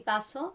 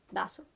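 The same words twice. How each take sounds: First: "vaso" starting with a true v sound. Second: "vaso" starting with a b sound. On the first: Teacher allowing the other option, "vaso" with a v. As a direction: say "vaso" with teeth on lip for the v. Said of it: "it's not incorrect to say". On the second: Teacher showing learners the Latin American option, "vaso" with a b. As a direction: say "vaso" like "baso". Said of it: "as a B". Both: Shown as a demonstration.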